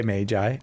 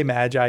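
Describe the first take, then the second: First: "Magi" with a long "ay" first vowel. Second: "Magi" with the short a of "cat". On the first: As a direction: say Magi as MAY-jai. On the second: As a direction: say Magi as MADJ-eye. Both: Shown as a demonstration. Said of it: "We always pronounce things differently".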